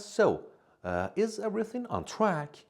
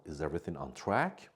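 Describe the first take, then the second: First: Lightly voiced friendly Rachel, higher and a little louder; a hint of a cheerful friend checking in; voicing Rachel. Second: Said in the usual way. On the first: Teacher voices Canadian friend Rachel. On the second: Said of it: "It means".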